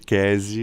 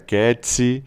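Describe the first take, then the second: First: The name has a 'k' and a plain 's'. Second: The name has a 'k' and a 'ts' sound. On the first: This is the reading most people adopted. "o pessoal começou a me chamar majoritariamente de Kesi" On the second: This is the Italian reading of the name. "em italiano seria Ketsi"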